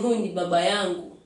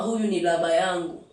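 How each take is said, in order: First: The third word begins with a b sound. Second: The third word begins with an l sound. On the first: The speaker calls it right. "instead of saying huyu ni baba yangu" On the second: The speaker calls it wrong. "anasema huyu ni laba yangu"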